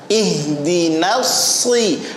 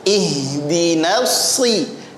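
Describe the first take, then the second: No difference in how they are said.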